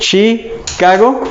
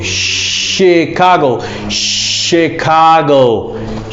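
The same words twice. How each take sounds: First: "Chicago" said as "chee-cago", rising; question-like "Chicago" with a Spanish ee; wrong Chicago. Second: Slow "Chicago" with a sh start, "shi-kah-go"; correct slow Chicago. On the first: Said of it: "it sounds kind of strange". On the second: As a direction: drag out "Chicago" for learners. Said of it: "you should say Chicago". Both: Shown as a demonstration.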